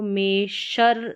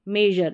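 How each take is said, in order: First: The middle consonant is a voiceless sh sound. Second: The middle consonant is a voiced zh sound. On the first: The speaker calls it wrong. "इसको मेशर नहीं पढ़ेंगे" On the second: The speaker calls it right. "यानी जर करके इसका उच्चारण होगा"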